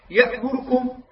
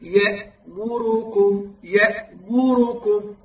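First: "يأمركم" بضمة راء مخطوفة "يأمرْكم"; اخطف الضمات في "يأمركم" سريعًا; اختلاس الضمة. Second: "يأمركم" ببطء مع إعطاء كل ضمة زمنها; رتّل "يأمركم" دون اختلاس الميم والراء; ضمّات تامّة. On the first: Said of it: "هكذا يقرأها". (قراءة "يأمركم" خاطئة ناقصة الحركة) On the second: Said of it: "هكذا تقرأها". (تلاوة "يأمركم" الصحيحة المتأنية) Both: Shown as a demonstration.

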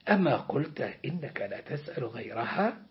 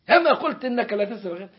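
First: Said in the usual way. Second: Rattled off fast and a bit louder; brisk, faster telling-off; quick reproach. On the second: Acted. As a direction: hurry the reminder impatiently. God reminds the servant.

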